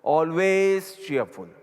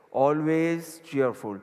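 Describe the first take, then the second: First: Each word drawn out for note-taking; slow dictation. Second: Words stretched out slowly for writing; slow dictation again. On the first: Guru dictating the English phrase, very slow. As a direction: dictate it slowly to the class. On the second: Guru repeating the phrase for notes, very slow. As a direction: spell it out slowly for the listeners. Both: Shown as a demonstration. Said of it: "ઇંગ્લિશમાં લખો".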